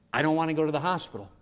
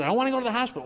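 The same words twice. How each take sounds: First: Said in the usual way. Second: Put-on much higher, pleading old woman; frightened grandma. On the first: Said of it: "All she cared about was". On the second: Grandma refusing the hospital, high frightened plea. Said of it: "she says".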